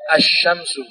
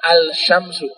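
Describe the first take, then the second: First: The L merges into a doubled sh sound. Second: The L is clearly sounded before sh. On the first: The speaker calls it right. "itu lamnya tidak terbaca" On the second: The speaker calls it wrong. "bukan al-syamsu"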